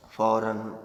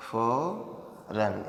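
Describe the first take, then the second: First: Said in the usual way. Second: Drawn out slowly. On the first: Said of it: "फौरन, (drawn out on repeat)". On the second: Shown as a demonstration. Teacher to students, dictating the word very slowly. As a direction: stretch फौरन out syllable by syllable, very slowly.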